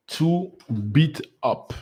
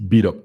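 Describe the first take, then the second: First: "To beat up" drawn out slowly, rising on "beat"; slow emphasis. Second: "Beat up" punched out louder; stressed beat up. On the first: Explaining the word to viewers, slow stress. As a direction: stretch out "To beat up". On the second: Emphasizing the word for viewers, punched loud. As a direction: hit "Beat" hard. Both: Shown as a demonstration. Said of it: "I want to emphasize on the word beat up".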